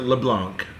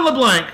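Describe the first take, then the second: First: LeBlanc said as "luh-BLONK"; French-style pronunciation. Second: Said in the usual way. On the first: Shown as a demonstration. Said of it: "Probably pronounced LeBlanc, technically". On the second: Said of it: "or is it LeBlanc?".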